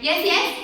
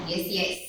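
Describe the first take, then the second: First: "Yes, yes" with the second "yes" lifted high and loud; second yes higher. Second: Second yes higher. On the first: Leading the girls in a call-and-response "yes, yes". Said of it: "The second yes must be higher than the first one". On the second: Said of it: "The second yes must be higher". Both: Shown as a demonstration.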